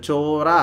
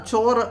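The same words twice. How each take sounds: First: "ചോറ" with the vowels stretched out, Thrissur style; drawn-out Thrissur pronunciation. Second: Said in the usual way. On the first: Retold or imitated. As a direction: imitate a Thrissur speaker lengthening "ചോറ". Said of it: "അവരിച്ചിരി നീട്ടിയാണ് പറയുന്നത്". ("ചോറ" തൃശ്ശൂർ ശൈലിയിൽ നീട്ടി പറയുക) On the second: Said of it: "ഞാൻ സാധാരണ".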